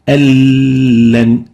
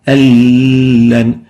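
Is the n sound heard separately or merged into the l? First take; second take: merged; merged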